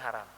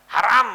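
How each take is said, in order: First: The word is said softly and calmly. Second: The word is shouted loudly. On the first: The ruling is stated gently. The speaker calls it right. "nggak usah teriak ya pelan-pelan" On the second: The ruling is stated harshly. The speaker calls it wrong. "kalau ini teriak nggak enak"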